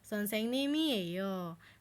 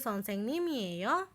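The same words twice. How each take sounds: First: The pitch stays low at the end. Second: The pitch rises at the end.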